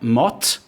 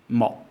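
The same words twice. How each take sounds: First: The final T is released with audible air. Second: The final T is held back without any release. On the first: The speaker calls it wrong. "So it's not mot" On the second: The speaker calls it right. "it's mot"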